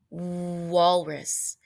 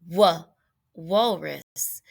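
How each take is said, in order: First: The w sound blends straight into the word. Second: A separate wa sound comes before the word. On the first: The speaker calls it right. "We say water and walrus" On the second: The speaker calls it wrong. "we don't say wa"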